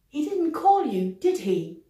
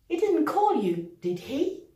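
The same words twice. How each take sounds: First: The pitch falls at the end of the tag. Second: The pitch rises at the end of the tag. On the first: The speaker is sure. "Intonation descendante" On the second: The speaker is not sure. "intonation montante"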